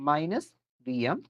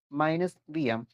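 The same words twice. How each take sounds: The two takes are said the same way.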